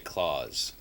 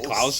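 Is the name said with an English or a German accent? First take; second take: English; German. First: The name is said with a plain English accent. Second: The name is said with a German accent. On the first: "I guess we just say Claus" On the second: "I have to say Klaus with a German accent"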